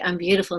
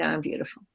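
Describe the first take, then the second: First: Said in the usual way. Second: Barely-there mumble, much softer; unconvinced reply. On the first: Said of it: "finally, they're like". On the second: Retold or imitated. On the box answering classmates, soft and unconvinced. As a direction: swallow the words, not owning them. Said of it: "I go".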